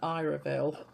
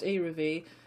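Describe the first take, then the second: First: The name ends with a 'vill' sound. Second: The name ends with a 'vee' sound. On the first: The speaker calls it wrong. "before I was actually calling her [name]" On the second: The speaker calls it right. "At least now I'm calling the artist Iravi"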